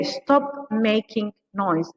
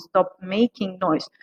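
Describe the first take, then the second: First: Very slow, spelled-out model phrase; very slow demo. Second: Said in the usual way. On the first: Shown as a demonstration. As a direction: drag each word for learners. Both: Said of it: "we say".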